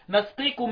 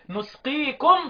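First: The first syllable has the vowel a. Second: The first syllable has the vowel u. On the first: "عكس الضم الفتح" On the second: "قرأوها بالضم في الموضعين"

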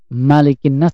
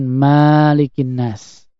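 First: The first vowel of Malikin is short. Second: The first vowel of Malikin is long. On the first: The speaker calls it right. "dibaca dengan bil qasr" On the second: The speaker calls it wrong. "tidak boleh dengan"

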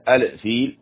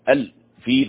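First: The final l is released with an echoing bounce. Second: The final l is held smoothly without a bounce. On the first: The speaker calls it wrong. "بعضهم يقلقلها وهذا خطأ" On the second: The speaker calls it right. "تمسك الفيل"

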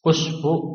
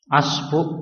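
First: The word begins with a u vowel. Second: The word begins with an a vowel. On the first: "dibaca dhammah" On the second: "dibaca fathah"

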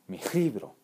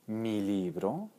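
First: The L in libro is voiceless. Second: The L in libro is voiced. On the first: It refers to several books. "plural mi libro ... con una L sorda" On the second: It refers to one book.

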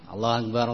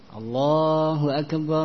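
First: The phrase is said quickly without lingering. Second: The phrase is said slowly and drawn out. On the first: This is the delivery for the iqamah. "Kalau iqamah cepat" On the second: This is the delivery for the adhan. "Kalau adhan, tamahul"

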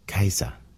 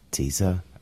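First: The name begins with a K sound. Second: The name begins with a TS sound.

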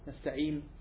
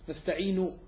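First: The word ends on a silent final consonant. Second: The word ends with a short final vowel.

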